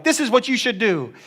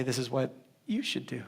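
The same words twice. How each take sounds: First: Higher, imitated telling-off; mock bossy. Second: Low, soft, with a pause before "you"; stress on YOU. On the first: Believers instructing Jesus their master, mock bossy. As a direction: boss him about in a raised pitch. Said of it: "we're like". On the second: Retold or imitated. Jesus answering as master, quiet stress on "you". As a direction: lower the voice, then set "you" apart. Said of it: "he reserves the right to say".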